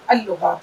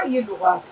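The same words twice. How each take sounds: First: اللغات read al-lughat with the l doubled; joined pronunciation. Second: Said in the usual way. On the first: Shown as a demonstration. Teacher contrasting with the written form, sounding out the doubled lam. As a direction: merge ال into لغات as al-lughat. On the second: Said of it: "ایسے لکھا".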